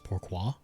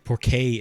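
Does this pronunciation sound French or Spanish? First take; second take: French; Spanish. First: It is said with a French pronunciation. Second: It is said with a Spanish-like pronunciation. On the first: The speaker calls it right. "it's pourquoi" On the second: The speaker calls it wrong. "not how you say it in France ... I think it might be Spanish"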